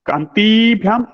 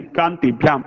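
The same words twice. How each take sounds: First: कान्तिभ्याम with ति held as a long "tee"; the mistaken कान्तिभ्याम, long stressed ee in ति; wrong long vowel. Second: कान्तिभ्याम with ति kept short; कान्तिभ्याम, brief i before भ्याम; corrected short vowel. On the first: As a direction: draw out the i before भ्याम in कान्तिभ्याम. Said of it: "नहीं". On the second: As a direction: pass quickly over the i in कान्तिभ्याम. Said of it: "ह्रस्व ई अस्ति". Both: Shown as a demonstration.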